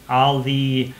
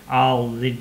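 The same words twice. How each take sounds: The two takes are said the same way.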